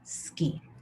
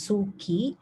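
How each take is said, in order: First: The u after s is silent. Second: The u after s is clearly voiced. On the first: The speaker calls it right. "Silent u" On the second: The speaker calls it wrong. "this is not pronounced as suki"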